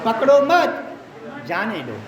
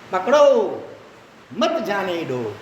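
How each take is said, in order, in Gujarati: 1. વિરામ 'mat' પછી તરત આવે છે. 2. વિરામ 'pakdo' પછી તરત આવે છે.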